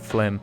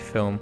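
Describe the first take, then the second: First: The vowel comes after the L sound. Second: The vowel comes before the L sound. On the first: The speaker calls it right. "but it's actually Flim" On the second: The speaker calls it wrong. "I was going to say film"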